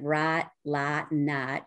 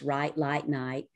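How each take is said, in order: First: The vowel is a flat Southern 'ah' sound. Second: The vowel is a full General American glide. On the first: This is how the speaker talked twenty years ago. "instead of" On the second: This is how the speaker talks after working on the accent.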